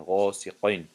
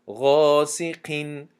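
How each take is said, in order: First: غاسقین with a thick, heavy qaf; heavy qaf error. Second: غاسقین with a thin, light qaf under kasra. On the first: Teacher shows the common wrong heavy غاسقین to students. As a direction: say غاسقین with a dark, back qaf. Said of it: "این خطا است". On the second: Teacher shows the correct thin غاسقین to students. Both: Shown as a demonstration.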